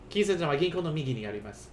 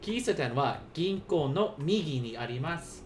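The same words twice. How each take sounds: First: It is spoken at a normal, quicker pace. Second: It is spoken slowly and deliberately.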